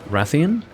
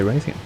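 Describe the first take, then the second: First: The name begins with a short 'rath' sound. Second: The name begins with a long 'ray' sound. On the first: The speaker calls it right. "the correct pronunciations for both names" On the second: The speaker calls it wrong. "But I'm in bad habits, so I say Raytheon"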